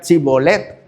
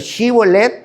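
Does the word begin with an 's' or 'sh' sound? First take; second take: s; sh. First: The word begins with an 's' sound. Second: The word begins with a 'sh' sound. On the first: This is how the other tribe's dialect said it. The speaker calls it wrong. "decían Sibolet" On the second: This is the form the Ephraimites could not say. The speaker calls it right. "otro dialecto que no podían pronunciar, esa de Shibolet"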